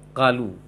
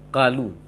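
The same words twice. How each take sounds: The two takes are said the same way.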